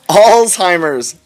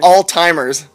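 First: It is said as alts-heimers, the standard form. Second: It is said as all-timers, like 'all time'. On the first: The speaker calls it right. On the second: The speaker calls it wrong.

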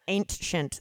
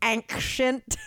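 First: The word is said in a plain, flat way. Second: The word is said in a dramatic, marked way. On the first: The speaker calls it right. "It sounds so boring that way" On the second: The speaker calls it wrong. "Sorry, no, I'll say it right"

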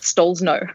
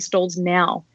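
First: The last syllable sounds like 'no'. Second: The last syllable sounds like 'now'. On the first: This is how the name's owner says it. "That's what I say" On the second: This is how other people say the name. "Other people say Stalls now"

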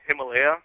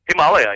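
First: Himalaya is pronounced the common American way. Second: Himalaya is pronounced in a non-American way.

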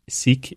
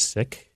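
First: The word has the anglicized colonial pronunciation. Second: The word has its original Punjabi pronunciation. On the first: This form spread in English under British rule. "Sikh is the colonial pronunciation" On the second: This is the original form from the tradition's own language. "The original in the Punjabi language is Sikh"

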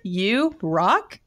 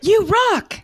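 First: The voice rises at the end. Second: The voice falls at the end. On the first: The speaker sounds doubtful, as if questioning it. The speaker calls it wrong. "You put a question mark at the end of it?" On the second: The speaker sincerely means it as praise. The speaker calls it right. "I like mine with an exclamation at the end"

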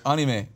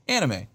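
First: The word has a Japanese pronunciation. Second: The word has an American English pronunciation. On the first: The speaker calls it wrong. "Which is how they would say it in Japan" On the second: The speaker calls it right. "a word that's become so Americanized"

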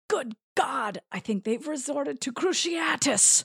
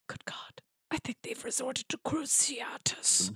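First: It is spoken in a normal voice. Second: It is spoken in a whisper.

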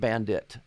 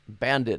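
First: The word ends with a t sound. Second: The word ends with a d sound. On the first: The speaker calls it wrong. "not Bandit" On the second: The speaker calls it right. "With that D banded in there"

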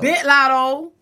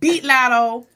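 First: It is said the Atlanta way, like 'bit'. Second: It is said the speaker's own way, like 'beat'.

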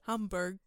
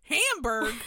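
First: It is said with a German-style pronunciation. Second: It is said with a broad American pronunciation. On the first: "You can say Hamburg instead" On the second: "If you want to be real American about it"

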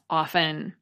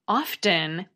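First: The T sound is silent in the middle. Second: The T sound is pronounced in the middle. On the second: "the pronunciation with the T"

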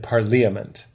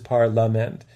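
First: The middle 'li' syllable is fully pronounced. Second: The middle 'li' syllable is dropped. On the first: The speaker calls it wrong. "It looks like parliament" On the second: The speaker calls it right. "which is parlament"

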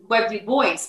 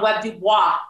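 First: The surname is said with an English pronunciation. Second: The surname is said with a French pronunciation. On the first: This is how the man himself said his name. The speaker calls it right. "he is Webb Du Bois" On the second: This is how most people said his name. The speaker calls it wrong. "everybody wanted to call him Webb Du Bois. He's not French"

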